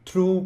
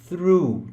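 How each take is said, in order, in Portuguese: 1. Começa com um som de t normal. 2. Começa com um som de th suave. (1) "tem gente que fala true com T" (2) "É through"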